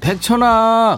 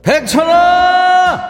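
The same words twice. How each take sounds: First: The name is said softly and plainly. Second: The name is shouted loudly and forcefully.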